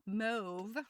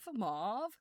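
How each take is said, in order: First: The vowel does not rhyme with suave. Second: The vowel rhymes with the vowel in suave. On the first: "mauve is the other way of saying it" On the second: "most of us say mauve, like suave"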